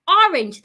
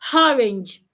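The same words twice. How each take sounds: First: The word starts with no H sound. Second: The word starts with an added H sound. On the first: The speaker calls it right. "There is no H in orange" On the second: The speaker calls it wrong. "Don't say"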